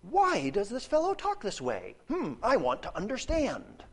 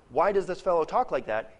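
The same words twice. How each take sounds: First: Higher, puzzled questioning voice; lightly voiced puzzled onlooker; mock curious asker. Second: Sharp rebuking question; pointed rebuke, not a real question. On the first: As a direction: play it as a genuinely curious question. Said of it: "The scribes are not saying". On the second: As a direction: say it as a scolding. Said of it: "is a rebuke". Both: Shown as a demonstration.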